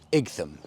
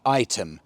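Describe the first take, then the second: First: It is said with a hard g and th. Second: It is said like the word item. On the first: The speaker calls it wrong. "completely the wrong pronunciation" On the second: The speaker calls it right. "It's actually item"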